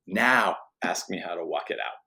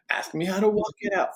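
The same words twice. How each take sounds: First: Said in the usual way. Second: Pitched-up repeat. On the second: Shown as a demonstration. Preacher urging the men again, higher and eager. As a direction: ask me how to walk it out much higher.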